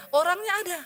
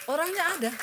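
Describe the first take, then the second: First: Loud, higher insistence; emphatic. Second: Said in the usual way. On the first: Shown as a demonstration. Preacher assuring congregation, loud emphatic. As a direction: insist the person is real.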